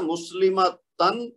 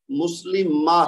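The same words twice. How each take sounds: First: "مسلمہ تن" with the final tan fully sounded; full unpaused form. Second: "مسلمہ" ending in a breathed h, no tan; stopping with ha. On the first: Teacher reads the word before stopping on it, full tan ending. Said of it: "تو اس کو ہم نے کیا پڑھنا ہے". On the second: Teacher shows students how to stop, final t turned to h. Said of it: "یعنی ہا کی آواز بنے گی". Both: Shown as a demonstration.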